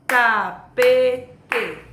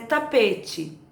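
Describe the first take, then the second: First: "Tapete" in three loud, separated beats: ta, pe, te; "Tapete" counted out slowly, one syllable at a time. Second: Said in the usual way. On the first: Shown as a demonstration. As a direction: hit every syllable of "Tapete" with a clap. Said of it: "batem palma pra tentar descobrir quantas sílabas". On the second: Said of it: "quantas sílabas tem a palavra".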